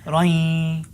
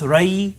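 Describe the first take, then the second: First: It ends with a nasal sound held through the nose. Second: It ends without any held nasal sound. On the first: The speaker calls it right. "but rain. Hold it in your nose" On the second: The speaker calls it wrong. "So not just rai"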